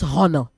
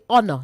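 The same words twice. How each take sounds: First: The word starts with an audible H sound. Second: The word starts with a vowel, no H sound. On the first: The speaker calls it wrong. "not honor" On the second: The speaker calls it right. "Say honor"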